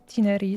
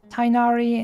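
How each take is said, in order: First: The name is said in its Japanese-dub form. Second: The name is said in its English-dub form. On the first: "in the Japanese one, they say Tinari" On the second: "in the English version, they say Tighnari"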